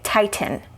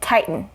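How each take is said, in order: First: The T is released with a puff of air. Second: The T is a glottal stop, air held back. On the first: "we're not going to release that air. We're not going to say tighten. You could" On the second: "native speakers will say tighten"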